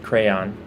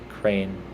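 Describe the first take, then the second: First: The word is said with two syllables. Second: The word is said with one syllable. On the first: This is the speaker's own way of saying it. "two syllables" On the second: This is how many Northerners say it. "a lot of people in the north call it crane"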